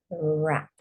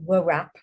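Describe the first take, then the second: First: No w sound is heard at the start. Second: A w sound is heard at the start. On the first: The speaker calls it right. "you say wrap. That's silent" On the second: The speaker calls it wrong. "you don't say wrap"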